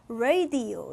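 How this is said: It is said with American English sounds. "radio 이렇게 읽는다"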